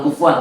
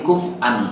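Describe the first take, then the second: First: The word is said as kufuan. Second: The word is said as kuf'an. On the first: "Bukan kufuan" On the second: "tapi kuf'an ahad"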